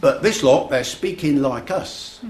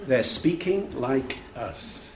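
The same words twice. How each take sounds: First: Higher, slow Cockney impression; inner-city London teen. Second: "They're speaking like us" slowed right down, softer; slow emphatic repeat. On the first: Lad marvels at the actors' speech, imitated Cockney. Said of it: "between the Cockney accent". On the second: Retold or imitated. Lecturer repeats the lad's line to the audience, slow emphatic repeat. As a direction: let each word of "They're speaking like us" land separately.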